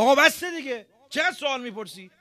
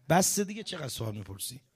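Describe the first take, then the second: First: Loud, high exasperated outburst; losing temper. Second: Said in the usual way. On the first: Retold or imitated. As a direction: snap at a pestering student, voice shooting up. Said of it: "آمپر چسبون". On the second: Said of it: "همینا".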